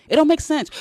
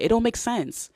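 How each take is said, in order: First: Louder, higher repeat. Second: Said in the usual way. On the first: Shown as a demonstration. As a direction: punch it up a notch higher and louder.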